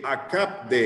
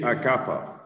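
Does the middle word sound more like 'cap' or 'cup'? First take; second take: cap; cup. First: The word sounds like 'cap de'. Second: The word sounds like 'cup of'. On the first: The speaker calls it wrong. "Because you say a cap de" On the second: The speaker calls it right. "It's not a cap de. Is a cup of water"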